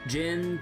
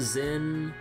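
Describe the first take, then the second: First: The name begins with a J sound. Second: The name begins with a Z sound. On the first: This is how earlier games said the name. The speaker calls it right. "names that we have heard multiple times across every game with English voice acting" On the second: This is how the remake says the name. The speaker calls it wrong. "You have Jin's name pronounced as Zin"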